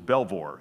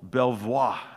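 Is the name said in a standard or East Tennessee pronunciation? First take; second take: East Tennessee; standard. First: The name is said in an East Tennessee accent. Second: The name is said in a standard pronunciation. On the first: The speaker calls it wrong. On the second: The speaker calls it right.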